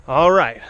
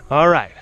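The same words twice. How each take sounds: The two takes are said the same way.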